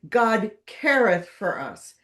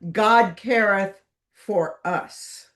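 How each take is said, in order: First: The word careth carries the main stress. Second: The word careth does not carry the stress. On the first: This is the ordinary way of saying the motto. "Emphasis on the second word" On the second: This is how the family itself said the motto. "A proper Mitford family pronunciation"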